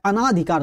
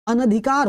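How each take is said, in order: First: अनाधिकार said "a-naa-dhikaar"; teacher's wrong example, अनाधिकार with long aa; long second vowel. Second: अनधिकार said "a-na-dhikaar"; teacher's correct model of अनधिकार; short second vowel. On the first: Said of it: "नहीं होता". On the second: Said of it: "होता है". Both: Shown as a demonstration.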